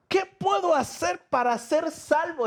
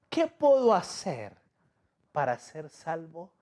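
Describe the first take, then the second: First: Much higher, pleading jailer's question; desperate jailer. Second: Said in the usual way. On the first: Acted. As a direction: beg for salvation in the jailer's voice. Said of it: "está diciendo el carcelero". (el carcelero suplica, mucho más agudo) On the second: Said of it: "les dijo".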